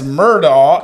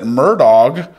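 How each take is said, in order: First: The name ends without a final g sound. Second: The name ends with a hard g sound. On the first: This is how the spelling reads. The speaker calls it right. "it's Murdaugh" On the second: This is how the family says it. The speaker calls it wrong. "they pronounce it Murdog"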